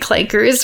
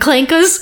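First: It is said in the speaker's ordinary accent. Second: It is said in an imitated character accent. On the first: The speaker calls it wrong. "it even sounds wrong just to say clankers" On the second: The speaker calls it right. "rather than clankers"

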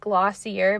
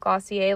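First: The name is pronounced as an English word. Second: The name is pronounced as a French word. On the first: "It's like Glossier" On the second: "but they pronounce it Glossier, like it's French"

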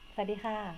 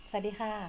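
First: The greeting is said smiling, in a happy tone. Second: The same.

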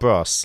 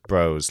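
First: It is pronounced like the band's name. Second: It is pronounced like slang for dudes. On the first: It names the pop band. The speaker calls it wrong. "Not Bros, like the band" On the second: It is slang for male friends. The speaker calls it right. "Bros, like the dudes"

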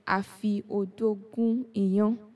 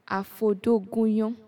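First: Each word is said whole, with every vowel kept. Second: The words run together, with vowels dropped. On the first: "instead of saying" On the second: "I removed the I"

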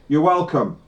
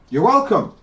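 First: It is said in a sarcastic tone. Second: It is said in a sincere tone. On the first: The thanks is not really meant. "I was being sarcastic" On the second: The thanks is really meant. "I meant it that time"

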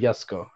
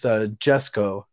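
First: The name begins with a Y sound. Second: The name begins with a J sound. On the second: "it's Jesko"

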